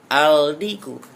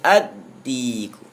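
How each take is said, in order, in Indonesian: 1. L dibaca dengan jelas sebelum d. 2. L menyatu menjadi bunyi d yang dobel.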